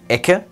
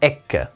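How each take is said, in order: First: The middle consonant is held briefly. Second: The middle consonant is held twice as long. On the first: The speaker calls it wrong. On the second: The speaker calls it right.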